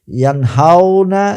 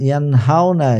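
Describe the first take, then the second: First: ইয়ানহাউনা stretched slow and higher, every syllable spelled out; slow model take. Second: Said in the usual way. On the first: Shown as a demonstration. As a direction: draw out ইয়ানহাউনা for the class. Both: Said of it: "আশা করি আমার উচ্চারণটা আপনারা বুঝতে পেরেছেন".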